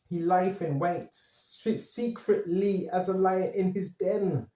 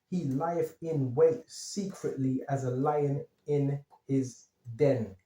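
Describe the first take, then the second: First: It is said fast. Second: It is said slowly.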